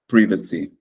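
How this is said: It is said with a British pronunciation. "Quando você estiver em Londres, privacy"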